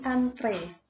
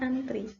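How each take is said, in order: First: The word ends with an 'eh' vowel. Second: The word ends with an 'ee' vowel. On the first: This is the standard form. The speaker calls it right. "bukan pakai i, melainkan pakai e. Jadi antre" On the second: This is the everyday nonstandard form. The speaker calls it wrong. "Bukan antri"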